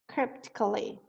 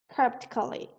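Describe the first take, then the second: First: The word is said with a P sound. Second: The same.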